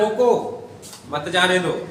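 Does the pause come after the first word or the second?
first. There is a pause after the first word. Stop him; do not let him go.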